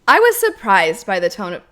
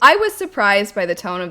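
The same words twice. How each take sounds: First: It is read in a dramatized, put-on voice. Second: It is read in a plain, normal voice. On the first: The speaker calls it wrong. "the way in which I change my tone when I read stuff" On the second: The speaker calls it right. "Read it in a normal voice"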